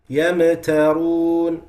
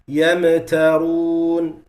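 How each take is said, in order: First: The meem gets an echoing bounce. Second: The meem gets an echoing bounce.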